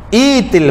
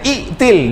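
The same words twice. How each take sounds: First: No glottal stop; the first vowel is long. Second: A glottal stop is sounded inside the word. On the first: The speaker calls it right. "hamzah dia tak dibunyi" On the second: The speaker calls it wrong. "Dia tak boleh baca itil"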